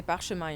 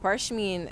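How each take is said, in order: First: Parchemin in French, pahr-shuh-MAN with nasal end; French word. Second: Said in the usual way. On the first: Shown as a demonstration. Explaining the French word to the host, French pronunciation. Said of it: "we say parchemin in French". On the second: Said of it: "and we say parchemin in French".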